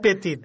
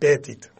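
First: The name is pronounced the French way. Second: The name is pronounced the English way. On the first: "în francez e Pettit" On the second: "în engleză probabil e Pettit"

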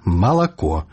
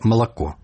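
First: Every vowel is pronounced fully and clearly. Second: The unstressed vowels are weakened and reduced. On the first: The speaker calls it right. "Кажам выразна" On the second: The speaker calls it wrong. "не «малако», як по-расейску"

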